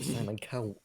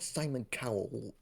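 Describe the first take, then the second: First: The surname is said unlike the TV judge's name. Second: The surname sounds like the TV judge's name. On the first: It names the actor who played the writer. "like different pronunciation" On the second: It names the television talent-show judge. "not Simon Cowell as in X Factor guy"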